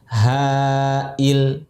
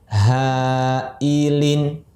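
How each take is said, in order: First: The word stops on a bare final l. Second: The word ends with a full -in ending. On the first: The reader stops at this word. "Apabila kita wakafkan sama dengan hail" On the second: This is the full form used when reading on. "menjadi hailin"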